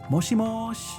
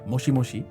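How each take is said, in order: First: The final vowel is cut off, ending in 'sh'. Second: The final 'i' vowel is clearly pronounced. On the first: "the she just kind of turns into a shh" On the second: "Very clearly the same sound"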